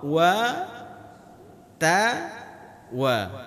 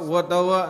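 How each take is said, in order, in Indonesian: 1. Bunyi w dibulatkan dan terdengar jelas. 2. Bunyi w menyatu dan tidak jelas. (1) "Jadi harus monyong" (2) "Jangan sekalian terus ... enggak jelas bunyi hurufnya"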